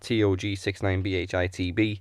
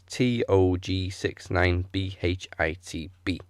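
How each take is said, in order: First: It is said at normal speed. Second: It is said slowly.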